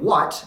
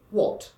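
First: Said in the usual way. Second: "what" with a rounded British aw vowel, higher; standard English what. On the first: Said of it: "as you would in standard American". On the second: Shown as a demonstration. Teacher contrasting American and British "what", rounded vowel. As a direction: lift the vowel in "what" to wɔt. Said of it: "you would say".

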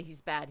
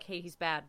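First: "bad" pressed down, low and serious; earnest stress on bad. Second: Tossed-off, casual "he's bad"; offhand. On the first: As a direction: lean on "bad" to mean it. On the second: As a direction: say "bad" lightly, like a shrug. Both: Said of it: "No, but really".

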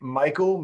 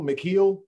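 First: Michael said as MY-kul; American pronunciation. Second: Mikhail said as mih-KEEL, higher; pronounced as spelled. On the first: Host checking the chef's name with co-host, Michael pronounced MY-kul. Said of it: "Maybe the American version?". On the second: Host checking the chef's name with co-host, Mikhail pronounced mih-KEEL. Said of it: "he spells it Mikhail". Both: Shown as a demonstration.

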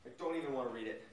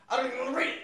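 First: Much lower, much softer and quick, "don't" sinking; low mutter. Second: "I don't" jumps way up with a rising squeak; squeaky mock voice. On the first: Reacting to a crazy chat with a low, quick mutter. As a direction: mumble it down under the breath. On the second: Reacting to a crazy chat in a high squeal. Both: Real, not acted.

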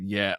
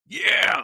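First: Said in the usual way. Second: Strained, high-pitched yeah of triumph; hushed cheer. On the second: Retold or imitated. Caller host retelling his fist-thump over a box, hushed cheer. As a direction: celebrate under your breath, pitch shooting up. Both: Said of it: "under my breath".

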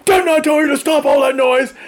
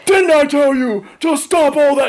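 First: Marine Corps shout. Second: Marine Corps voice. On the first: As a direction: shout it down the hall like a sergeant. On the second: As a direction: bark it at the kids like a drill sergeant. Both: Retold or imitated. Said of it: "I'm using my Marine Corps voice".

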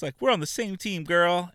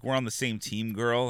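First: High, louder mocking taunt; catty mean-girl sneer, high pitched; snotty mean girl. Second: Said in the usual way. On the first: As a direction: lay on the fake sweetness much higher. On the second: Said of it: "just the way she was like".

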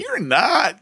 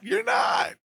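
First: Said in the usual way. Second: Playful higher retort. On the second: Real, not acted. Teasing refusal repeated.

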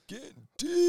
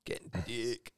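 First: High mock echo. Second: Said in the usual way. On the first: Echoing joke line.

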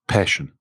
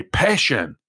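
First: Low-pitched, unbothered one-word answer; laid-back. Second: Demonstrating a passionate delivery; with intensity. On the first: Retold or imitated. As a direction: say it slouched, with no intensity. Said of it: "was so laid back". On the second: Shown as a demonstration. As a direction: say the word as if you mean it. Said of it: "same intensity where you expected".

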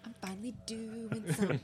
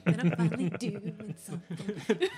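First: Said in the usual way. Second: Slow, louder, laughing; excited laughing. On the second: Real, not acted. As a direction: savor it with a delighted laugh.

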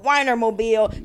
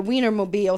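First: "Weinermobile" said with a WINE first syllable; mispronounced Wienermobile. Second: Said in the usual way. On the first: Retold or imitated. Teaser reading out her misspelling, "Weinermobile" with WINE at the front. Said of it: "somebody was like". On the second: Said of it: "she wrote Weinermobile".

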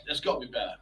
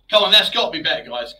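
First: Quiet muttered aside. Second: Loud and exasperated. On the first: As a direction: mutter it under your breath. Same words muttered again. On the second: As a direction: push it out, fed up. Frustrated at mic fixing. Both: Real, not acted.

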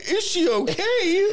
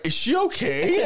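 First: Higher and slow, mock concern; drawn-out sarcastic okay. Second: Said in the usual way. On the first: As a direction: stretch it out in fake worry. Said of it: "And I'm like". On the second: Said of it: "me showing people, like".

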